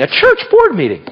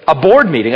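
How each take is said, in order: First: "church" punched up high; stress on church. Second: Said in the usual way. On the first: Real, not acted. Preacher correcting board meeting, stressing "church". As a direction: hit "church" hard with raised pitch.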